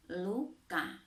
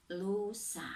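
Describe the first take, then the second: First: LUKA in two careful syllables, distinct "k"; clear articulation. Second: LUSA in two careful syllables, distinct "s"; clear articulation. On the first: Teacher contrasting similar words for pupils, clear articulation of "luka". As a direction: articulate "luka" slowly, marking the k. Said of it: "berbeda dengan lusa". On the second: Teacher contrasting similar words for pupils, clear articulation of "lusa". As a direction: articulate "lusa" slowly, marking the s. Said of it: "berbeda dengan". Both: Shown as a demonstration.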